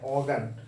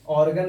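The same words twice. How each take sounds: First: The r sound after the vowel is silent. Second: The r sound after the vowel is pronounced. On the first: The speaker calls it right. "आर को silent करके pronounce करते हैं" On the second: The speaker calls it wrong. "ऑर्गन नहीं बोलेंगे"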